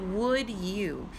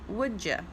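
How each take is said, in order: First: Each word is said separately and clearly. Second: The words blend into one with a reduced vowel. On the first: It sounds very proper and formal. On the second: It sounds casual and informal.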